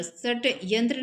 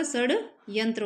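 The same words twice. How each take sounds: First: षट्यंत्र with a hard t, shat-yantra; wrong form. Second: षड्यंत्र with a voiced d, shad-yantra; correct form. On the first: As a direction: sound a t before yantra in षट्यंत्र. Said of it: "षट्यंत्र नहीं होता". (षट्यंत्र, ट की ध्वनि के साथ) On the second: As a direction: pause slightly after shad in षड्यंत्र. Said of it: "षड्यंत्र होता है". (षड्यंत्र, ड की ध्वनि के साथ) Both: Shown as a demonstration.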